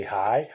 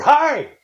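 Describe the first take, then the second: First: Said in the usual way. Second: High, loud "Hi" with a big swoop; inflected greeting. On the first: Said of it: "still means the same thing". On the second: Shown as a demonstration. Host showing inflection changes nothing, exaggerated high loud HI. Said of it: "I don't need the inflection".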